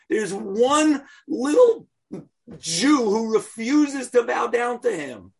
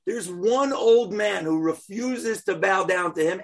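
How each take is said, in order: First: Haman's fury voiced in the telling; indignant. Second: Said in the usual way. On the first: Narrating Haman's outrage at Mordechai.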